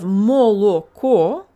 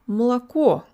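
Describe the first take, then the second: First: Every vowel is a full oh sound. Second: The unstressed vowels are reduced to ah sounds. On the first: The speaker calls it wrong. "instead of moloko" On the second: The speaker calls it right. "it's молоко"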